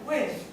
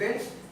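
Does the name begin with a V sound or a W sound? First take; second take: W sound; V sound. First: The name begins with a W sound. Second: The name begins with a V sound. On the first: "they tend to pronounce it as W" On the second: "they don't say Vince"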